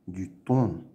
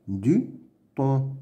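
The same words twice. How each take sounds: First: Said in the usual way. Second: "Du thon" with a pause after "Du"; "Du" and "thon" as two separate beats; syllable by syllable. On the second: Shown as a demonstration. Teacher sounding out words to read, "Du thon" in separate pieces. Reading drill, split then blended.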